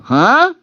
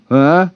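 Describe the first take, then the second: First: Very high, loud squeak of disbelief; can't believe what you just heard; baffled huh. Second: Confused huh. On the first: Narrator reacting to a teen's song request, squeaked disbelief. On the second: Co-worker confused. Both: Retold or imitated.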